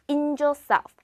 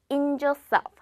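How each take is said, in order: Both takes have the same delivery.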